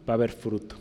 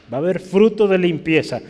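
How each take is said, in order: First: Quiet. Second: "fruto" lifted higher and louder, falling at the end; emphatic repeat. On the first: Preacher sets up the repeat. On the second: Preacher proclaiming to the congregation, stress on "fruto". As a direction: build up to "fruto" with force. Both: Shown as a demonstration.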